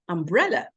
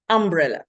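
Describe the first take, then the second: First: The stress is on the second syllable. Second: The stress is not on the second syllable. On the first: The speaker calls it right. "The stress should be on the second syllable" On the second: The speaker calls it wrong. "they put the stress in the wrong place"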